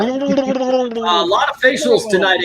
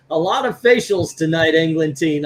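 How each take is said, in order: First: High, fast gurgly underwater voice. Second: Said in the usual way. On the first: Pretend. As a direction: read it like you're underwater. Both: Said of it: "you gotta read it like you're underwater".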